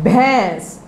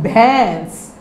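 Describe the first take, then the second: No difference in how they are said.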